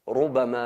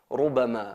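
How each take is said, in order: Both takes have the same delivery.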